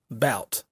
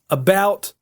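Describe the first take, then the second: First: The word is said shortened. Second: The word is said in full. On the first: "shave a little bit off of words" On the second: "shaving off some of the words"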